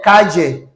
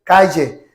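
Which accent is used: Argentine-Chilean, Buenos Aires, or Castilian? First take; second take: Argentine-Chilean; Argentine-Chilean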